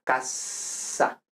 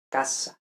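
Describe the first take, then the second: First: "casa" whispered, s without voice; voiceless s in casa. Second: "casa" with a soft unvoiced s; voiceless s in casa. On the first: Teacher repeats unvoiced casa for Spanish speakers. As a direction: breathe out "casa" with a hissed s. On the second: Teacher whispers Spanish casa to show no buzz. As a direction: hiss the s in "casa", no voice. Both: Shown as a demonstration. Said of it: "y no vibra".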